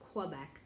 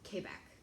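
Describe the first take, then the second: First: It is said the common American way. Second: It is said a non-American way. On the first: "the most common U S pronunciation" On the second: "I've also heard"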